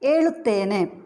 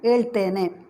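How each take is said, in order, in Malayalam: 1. മധ്യത്തിലെ സ്വരം പൂർണ്ണമായി ഉച്ചരിക്കുന്നു. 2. മധ്യത്തിലെ സ്വരം ഒഴിവാകുന്നു.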